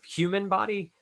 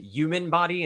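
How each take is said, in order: First: The h at the start of human is pronounced. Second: The h at the start of human is dropped. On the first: The speaker calls it right. "instead of" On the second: The speaker calls it wrong. "really went with my Jersey accent there"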